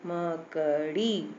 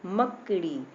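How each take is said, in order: First: मकड़ी slowly in syllables, the final "ee" held; long final vowel. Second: Said in the usual way. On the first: Shown as a demonstration. Teacher repeating to show long ee takes time, stretched ending. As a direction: draw out the last vowel of मकड़ी. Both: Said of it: "time लगा ना".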